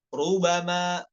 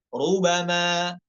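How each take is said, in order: No difference in how they are said.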